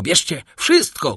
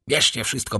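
First: Louder desperate shout on the repeat; the banker breaks and shouts. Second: Said in the usual way. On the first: A narrator's reading. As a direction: throw it all away in a shout. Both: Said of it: "krzyknął Danglars".

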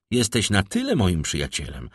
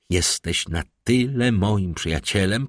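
First: Said in the usual way. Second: Words measured out. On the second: A narrator's reading. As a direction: space out each word insistently. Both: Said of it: "Tu Albert jął cedzić słowa".

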